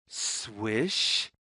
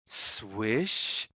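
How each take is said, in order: Both takes have the same delivery.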